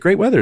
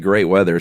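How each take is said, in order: First: It sounds sincere, without a dropping pitch. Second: It sounds sarcastic, with the pitch dropping low. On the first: The weather really is nice. "If it was really great weather" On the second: The weather is actually bad. "your tone and your intonation goes down as a clear signal of sarcasm"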